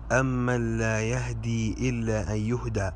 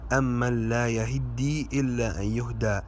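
First: "يهدي" as yahdi; undoubled dal. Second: "يهدي" as yahiddi; doubled dal. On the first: Teacher shows a common mistake, "يهدي" said yahdi. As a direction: say "يهدي" with silent ha and single d. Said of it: "وهذا خطأ". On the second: Teacher recites the corrected verse, "يهدي" said yahiddi. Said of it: "الدال مشددة". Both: Shown as a demonstration.

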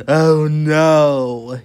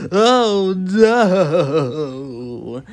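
First: Loud, drawn-out groan of horror; gasped dismay. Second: Loud, longer wavering wail of dismay; horrified wail. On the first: Mister Fussy finds his bathroom, horrified loud gasp. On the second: Mister Fussy takes in the bathroom mess, long horrified wail. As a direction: wail it out, stretching the last word. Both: Acted. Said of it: "he gasped".

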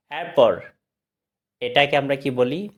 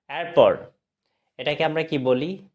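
No difference in how they are said.

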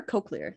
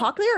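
First: Cochlear said as COKE-lee-er; long o, as in coke, in cochlear; long-o pronunciation. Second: Cochlear said as COCK-lee-er; short-o pronunciation. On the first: Cohost offering the other version she heard, cochlear with a long o. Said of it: "I heard it as cochlear". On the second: Cohost checking the word with the guest, cochlear with a short o. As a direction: open short o in the first syllable of cochlear. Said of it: "Is it cochlear or cochlear?". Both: Shown as a demonstration.

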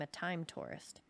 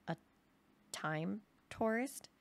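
First: "time tourist" falling at the end; "tourist" drops, finished; matter-of-fact naming. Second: "time tourist" slow, broken up, rising at the end; "tourist" lifts into a slow question; puzzled echo question. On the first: Names what he became. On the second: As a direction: query "time tourist" word by word. Listener echoes the strange term. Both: Acted.

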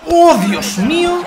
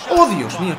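First: Amazed. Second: Said in the usual way. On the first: Real, not acted.

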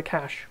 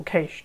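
First: Cache said to rhyme with cash; cache pronounced "kash". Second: Cache said with a long a, "kaysh"; cache pronounced "kaysh"; cache like caysh. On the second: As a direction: say cache to rhyme with the start of "nation". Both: Shown as a demonstration. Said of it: "or cache, depending on where you are".

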